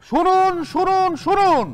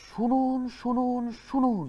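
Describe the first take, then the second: First: It is shouted very loudly. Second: It is said more softly.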